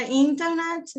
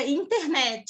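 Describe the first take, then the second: First: Internet with an added E at the end, inter-nét-chi; Brazilian internet. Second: Internet ending on a clipped T, no added vowel; English internet. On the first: Teacher showing how Brazilians pronounce it, extra E. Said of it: "Você põe um E no final que não existe". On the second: Teacher contrasting the English pronunciation, no final E. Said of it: "em inglês fica". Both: Shown as a demonstration.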